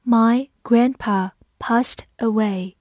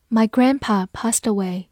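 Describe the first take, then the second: First: Each word drawn out slowly; slow, careful model reading. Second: Said in the usual way. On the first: Shown as a demonstration. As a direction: read it slowly for learners. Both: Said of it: "我们把这两句话慢读一遍".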